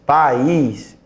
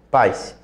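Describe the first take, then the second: First: The vowels split into two syllables, stressing the i. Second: The vowels glide together in one syllable. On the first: "pode ver que o I agora tem força" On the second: "E continuaria sendo um ditongo"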